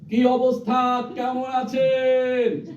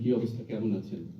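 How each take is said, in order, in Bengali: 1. এটি পূর্ণ জোরে চিৎকার করে বলা হয়েছে। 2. এটি আস্তে, কথোপকথনের স্বাভাবিক মাত্রায় বলা হয়েছে। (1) "এটা যদি বুড়িগঙ্গার ওই পাশে হয়" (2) "আমি একজন কাছের মানুষকে যেভাবে কথা বলবো ... এর বেশি বলার দরকার নেই"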